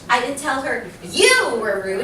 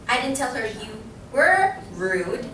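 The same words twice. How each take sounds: First: The word you carries the stress. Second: The word rude carries the stress. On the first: It was said about another person. "It could have been somebody else that I was talking about" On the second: Something else was said about the person. "I'm putting emphasis on what? The word rude"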